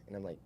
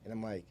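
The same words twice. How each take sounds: The two takes are said the same way.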